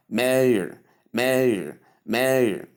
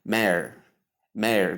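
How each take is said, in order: First: Mayor drawn out as MAY-er; mayor with "ay", schwa, then R; American pronunciation. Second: Mayor as simple MAIR; mayor in one syllable, like prayer as PRAIR; British pronunciation. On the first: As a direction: say mayor the American way, sounding the final R. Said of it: "the R that the Americans usually include". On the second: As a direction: say mayor the British way, rhyming with air. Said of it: "But in the British pronunciation". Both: Shown as a demonstration.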